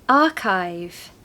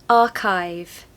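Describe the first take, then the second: Both takes have the same delivery.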